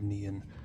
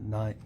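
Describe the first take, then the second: First: The name sounds like the word 'neon'. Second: The name sounds like the word 'nine'. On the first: The speaker calls it wrong. "instead of Neon" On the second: The speaker calls it right. "Apparently it's pronounced nine"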